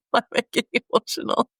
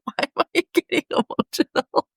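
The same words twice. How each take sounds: First: Quick teary laugh. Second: Higher, tearful laughing question; teary laugh. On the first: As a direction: brush it off with a rushed, choked-up laugh. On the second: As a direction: laugh through rising tears, surprised at yourself. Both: Real, not acted.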